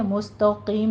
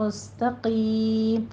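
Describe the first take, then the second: First: مستقیم with heavy س and ت; wrong pronunciation. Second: مستقیم with thin س and ت, heavy ق; slow مستقیم, light سین and تا, full قاف; recited مستقیم; correct tajweed. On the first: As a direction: say مستقیم with thick seen and ta. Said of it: "مستقیم نہیں کہنا ہے". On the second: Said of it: "سین بھی باریک، تا بھی باریک". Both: Shown as a demonstration.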